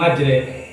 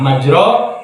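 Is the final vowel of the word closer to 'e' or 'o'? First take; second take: e; o. First: The word ends in a fronted 'e'-like vowel. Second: The word ends in an open 'o'-like vowel. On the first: It moves forward on water. "tapi dia baca nama majre" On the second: It moves forward on dry land. "tulisan mah majro"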